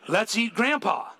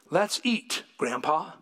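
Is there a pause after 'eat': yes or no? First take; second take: no; yes. First: It runs straight on without a pause. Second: There is a pause between eat and Grandpa.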